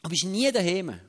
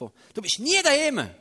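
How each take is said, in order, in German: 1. Es wird in einem neutralen, sachlichen Ton gesagt. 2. Es wird in einem vorwurfsvollen, anklagenden Ton gesagt.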